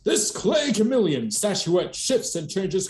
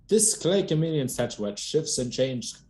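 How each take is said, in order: First: It is read in a put-on announcer voice. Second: It is read in an ordinary speaking voice.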